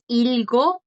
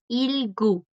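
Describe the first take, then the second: First: The final vowel sounds like 'o'. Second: The final vowel sounds like 'u'. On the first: The speaker calls it wrong. "esta no es ilgo" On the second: The speaker calls it right. "es ilgu"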